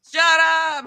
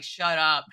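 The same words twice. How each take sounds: First: "Shut up" thrown out high and loud in giddy disbelief; delighted disbelief. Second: Said in the usual way. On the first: Retold or imitated. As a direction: squeal "Shut up" like the praise is too much. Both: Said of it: "And I'm like".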